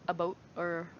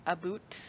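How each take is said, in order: First: "a boat", with a long o like the word boat; Canadian about as boat. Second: "a boot", with a long oo like the word boot; Canadian about as boot. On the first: A streamer saying "about" the Canadian way, with a long oh. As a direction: say "a boat" with a rounded oh vowel, as a take on the Canadian "about". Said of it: "I've never heard anyone say a bo". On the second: A streamer trying a second Canadian "about", with a long oo. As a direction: say "a boot" with a tight oo vowel, as another take on "about". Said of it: "I've never heard anyone say".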